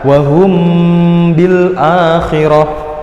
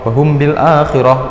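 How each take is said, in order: First: The m sound is hidden and nasal. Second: The m sound is said plainly and clearly. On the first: The speaker calls it right. "Jadi harus dibaca" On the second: The speaker calls it wrong. "jangan dibaca biasa, ... itu jelas nggak boleh gitu"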